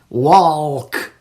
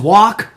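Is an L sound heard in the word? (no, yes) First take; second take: yes; no. First: The word is said with an L sound. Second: The word is said without an L sound.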